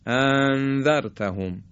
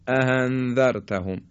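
First: The two glottal stops run together into one. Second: One glottal stop is weakened into a breathy h. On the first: "یا اینکه به همدیگه وصل کنیم" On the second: "یه چیزی شبیه هی میشه"

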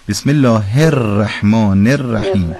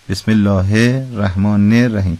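The two takes are said the same way.

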